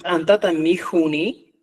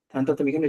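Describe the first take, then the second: First: The consonants are glottalized and aspirated. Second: The consonants are plain, without glottalization or aspiration. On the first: This is the Cusco-Collao dialect form. "lo denomina como una expresión laringalizada" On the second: This is the Chanca dialect form. "es la forma del quechua chanca"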